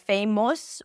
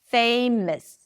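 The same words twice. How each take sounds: First: The final syllable has a full, clear vowel. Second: The final syllable is reduced to a schwa. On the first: The speaker calls it wrong. "you don't want to say something like famous" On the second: The speaker calls it right. "It's just a schwa"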